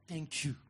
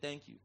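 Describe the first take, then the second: First: It is said warmly and with feeling. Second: It is said quickly and offhandedly. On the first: The speaker is truly grateful. The speaker calls it right. "Make the person see, I'm grateful" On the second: The thanks is a mere formality. The speaker calls it wrong. "don't say the thank you casually. Don't just say"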